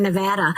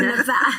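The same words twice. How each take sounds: First: Nevada with a short flat a, nuh-VAD-uh; American Nevada. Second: Nevada with a broad ah, nuh-VAH-da; British Nevada. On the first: Agent switching to the local American Nevada. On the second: Agent contrasting her own Nevada with the local one. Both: Shown as a demonstration. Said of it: "then I have to do it in Nevada".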